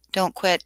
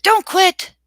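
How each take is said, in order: First: Said in the usual way. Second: Much higher and louder, urging hard; emphatic cheer. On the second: Real, not acted. Streamer urges a dissertation student not to give up, loud cheer. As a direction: shout it as a rallying cry.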